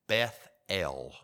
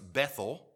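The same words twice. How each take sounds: First: The name is said as two separate parts. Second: The name is said as one blended word. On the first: The speaker calls it right. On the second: The speaker calls it wrong.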